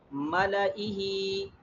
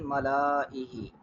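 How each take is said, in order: First: The extra alif vowel is not sounded. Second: The extra alif vowel is sounded long. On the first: The speaker calls it right. "should not pronounce the alif at all" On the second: The speaker calls it wrong. "rather than"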